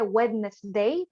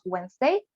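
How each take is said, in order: First: Every written letter is sounded out, including 'd'. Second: The 'd' is silent, as in 'Wenz-day'. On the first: This is how the word is written. "se escribe Wednesday" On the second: This is how people actually say it. "pero lo decimos Wednesday"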